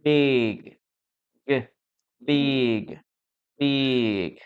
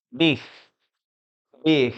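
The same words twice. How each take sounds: First: "big" closed on a voiced hard G; careful model "big" with a clearly sounded final G; correct pronunciation. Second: "big" with a harsh h-like ending in place of G; incorrect pronunciation. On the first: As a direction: draw out "big" and land on the G. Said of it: "The correct pronunciation of this word is with the letter G". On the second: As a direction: let the end of "big" hiss out instead of closing on G. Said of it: "I used to pronounce it this way". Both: Shown as a demonstration.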